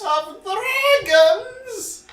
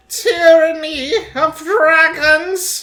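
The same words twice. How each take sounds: First: High squeaky sing-song echo. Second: Big slow show-intro announcement; announcer voice. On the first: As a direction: squeal the title back. Echoing the intro title. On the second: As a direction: boom it out like a show opener. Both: Acted.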